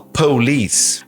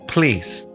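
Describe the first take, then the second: First: The first vowel is clearly pronounced. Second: The first vowel is dropped entirely. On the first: "alguns sotaques americanos... falam police" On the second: "na fala rápida, eles falam please"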